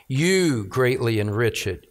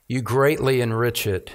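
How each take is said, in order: First: You leaned on, the rest of the line falling away; stress on you. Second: Said in the usual way. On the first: Shown as a demonstration. Preacher rereading the verse to show the repeated pronoun, stress on You. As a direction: point at You. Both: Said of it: "just notice that repetition of you".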